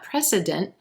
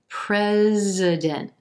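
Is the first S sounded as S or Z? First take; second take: S; Z. First: The first S is sounded as S. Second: The first S is sounded as Z. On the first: The speaker calls it wrong. "so it's not precedent" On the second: The speaker calls it right. "That S is going to sound like a, a Z"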